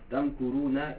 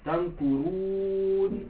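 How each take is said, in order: First: The word ends on a short vowel and continues. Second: The word ends on a consonant after a long vowel. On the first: The reading continues into the next word. "si je ne m'arrête pas, je fais la liaison avec le mot qui suit" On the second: The reading stops at this word. "vu que je m'arrête ici ... là j'ai une soukoune. Donc là, je prononce 4 temps"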